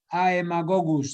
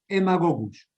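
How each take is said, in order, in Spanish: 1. La palabra empieza con un sonido 'a-e'. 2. La palabra empieza con un sonido 'e' simple. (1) "se escribe" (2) "pero se pronuncia Emagogus"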